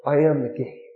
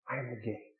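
First: Said in the usual way. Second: Soft echo. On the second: Shown as a demonstration. Pastor repeats the same words.

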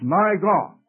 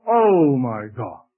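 First: Said in the usual way. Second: "Oh" drawn out slow and lower, like a cry; slow anguished "Oh my God", leaning on "Oh"; emphasis on oh. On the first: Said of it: "In Matthew, it's". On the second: Shown as a demonstration. Preacher showing Mark's added cry, slow anguished emphasis. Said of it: "Giving emphasis".

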